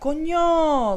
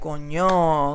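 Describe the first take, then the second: First: It is said in a surprised, amazed way. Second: It is said in a dismayed, upset way. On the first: Something surprising has happened. "like if you're surprised" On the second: Something bad has happened. "like if something's like bad"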